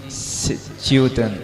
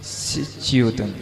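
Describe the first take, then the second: No difference in how they are said.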